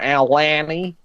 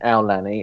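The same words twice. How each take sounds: First: The name is said the Australian way. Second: The name is said the American way. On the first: "the Australians were like" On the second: "a lot of the American cast members were saying"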